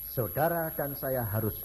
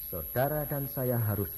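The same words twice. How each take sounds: The two takes are said the same way.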